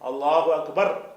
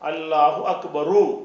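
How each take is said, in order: First: The phrase ends on a bare consonant. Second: The phrase ends with an extra final vowel. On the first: The speaker calls it right. "எப்படி சொல்லணும்" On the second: The speaker calls it wrong. "சொல்லக்கூடாது"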